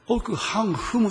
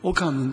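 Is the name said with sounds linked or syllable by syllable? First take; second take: separate; linked. First: The syllables are said separately, without linking. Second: The syllables are linked together into one flow. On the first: "奥ハンフムって言うんですけども" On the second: "韓国の名前はリエゾンしますが、オカンヌンと発音します"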